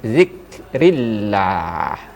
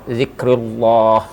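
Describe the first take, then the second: First: The l in Allah is thin and light. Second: The l in Allah is thick and heavy. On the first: The speaker calls it right. "harus dibaca dengan tarkik zikrillah. Ya, ringan saja" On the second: The speaker calls it wrong. "tadi dibaca zikrullah, ah, tidak mau dia"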